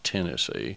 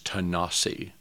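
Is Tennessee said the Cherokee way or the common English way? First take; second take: common English; Cherokee. First: It is said with the common English pronunciation. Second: It is said with the Cherokee pronunciation. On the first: The speaker calls it wrong. "not Tennessee" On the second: The speaker calls it right. "a place that Cherokees pronounce as Tennessee"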